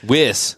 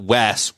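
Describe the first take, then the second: First: The vowel sounds like the one in 'wish'. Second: The vowel sounds like the one in 'west'. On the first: The speaker calls it right. "it's Wis" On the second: The speaker calls it wrong. "not Wes"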